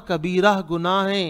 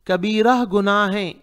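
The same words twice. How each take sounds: The two takes are said the same way.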